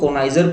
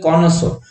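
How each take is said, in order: First: It is said konaizer, ending in zer. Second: It is said konso, ending in so. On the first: The speaker calls it wrong. "जैसे कि आप हम तो कोनाइजर पढ़ रहे हैं" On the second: The speaker calls it right. "इसकी pronunciation जो करेक्ट होती है वो होती है कॉनसो"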